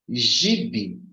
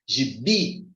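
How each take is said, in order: First: The stress is on the first syllable. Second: The stress is on the second syllable. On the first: The speaker calls it wrong. "no gi e pronunciar aqui mais forte" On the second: The speaker calls it right. "pronunciar esse bi com mais ênfase"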